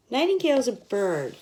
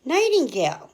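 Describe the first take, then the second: First: Said in the usual way. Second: Nightingale said higher and louder; stressed nightingale. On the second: Shown as a demonstration. Naming the bird for kids, nightingale higher and louder. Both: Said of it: "N is for".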